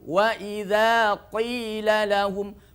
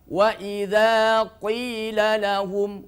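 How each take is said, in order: First: The q in qila is heavy and thick. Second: The q in qila is heavy and thick.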